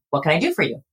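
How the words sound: The voice falls at the end. The speaker sounds confident and in control. The speaker calls it right. "on the downward inflection or a neutral inflection"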